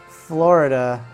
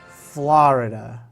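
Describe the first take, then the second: The two takes are said the same way.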